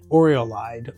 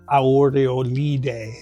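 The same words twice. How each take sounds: First: It is said with an English accent. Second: It is said with an Italian accent.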